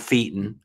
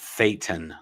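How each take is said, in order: First: The first syllable does not rhyme with Satan's. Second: The first syllable rhymes with Satan's. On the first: The speaker calls it wrong. "it's not thetan" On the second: The speaker calls it right. "it's thetan, like Satan with lisp"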